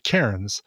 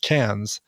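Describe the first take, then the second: First: It is said with a non-Australian accent. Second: It is said with an Australian accent. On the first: This is how outsiders say the name. "you and I would pronounce that Cairns" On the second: This is how locals say the name. "in Australia, it's pronounced Cairns"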